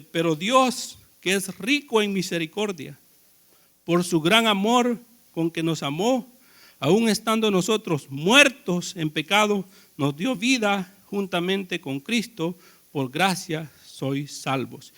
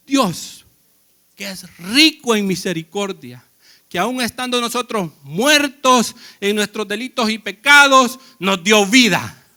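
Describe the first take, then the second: First: Quiet, measured Bible reading, slowing at the end; hushed reverent reading; scripture reading. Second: Preached louder, punching pecados and nos dio vida; emphatic preaching. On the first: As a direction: read the verse softly and slowly to the congregation. Reads Efesios 2 aloud. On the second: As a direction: drive the verse home to the church. Repeats verse, preaching it. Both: Acted.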